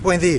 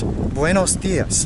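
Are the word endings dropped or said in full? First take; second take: dropped; full. First: The final syllables are dropped and words run together. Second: Every syllable of both words is said fully. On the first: "They'll leave off the last syllable" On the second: "You'll learn good morning as"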